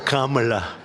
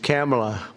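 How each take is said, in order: First: The first syllable sounds like 'calm'. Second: The first syllable sounds like 'cam'. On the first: "as opposed to Calm" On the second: "It's Cam, right?"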